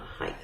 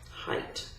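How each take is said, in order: First: The word ends with a th sound. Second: The word ends with a plain t sound. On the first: The speaker calls it wrong. "not height" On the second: The speaker calls it right.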